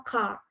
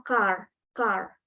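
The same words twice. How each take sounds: First: "car" with the final R dropped to a faint trace; "car" ending on an open vowel, R hidden; British silent R. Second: "car" with the final R clearly sounded; "car" ending on a distinct American R. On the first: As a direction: say "car" the British way, R barely heard. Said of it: "kalau British tuh biasanya". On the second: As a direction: say "car" the American way, R fully pronounced. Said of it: "American itu biasanya R-nya lebih jelas". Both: Shown as a demonstration.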